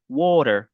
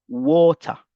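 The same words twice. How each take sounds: First: It is said in an American English accent. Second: It is said in a British English accent. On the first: "Ça, c'est l'anglais américain" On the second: "Ça, c'est l'anglais britannique"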